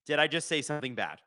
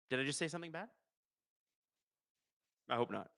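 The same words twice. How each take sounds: First: Said in the usual way. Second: Much softer, almost under his breath; quiet. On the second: Real, not acted. Streamer worried he said something bad, asks again quietly. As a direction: repeat it to yourself, hushed and sheepish.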